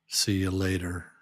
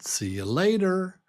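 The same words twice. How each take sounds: First: It is said flatly, without cheer. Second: It is said cheerfully and happily.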